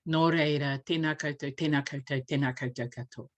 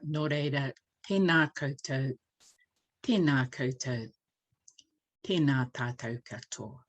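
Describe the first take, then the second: First: It is said very fast. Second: It is said slowly and meaningfully.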